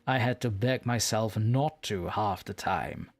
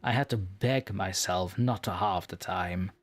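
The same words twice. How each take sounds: First: The sentence has a natural, fitting intonation. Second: The sentence has an awkward, misplaced intonation. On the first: The speaker calls it right. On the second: The speaker calls it wrong.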